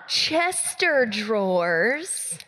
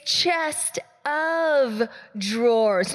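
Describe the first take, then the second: First: The middle word blends in, sounding like Chester. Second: The middle word of is said as its own word. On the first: The speaker calls it wrong. "It's not Chester drawers" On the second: The speaker calls it right. "It's chest of drawers"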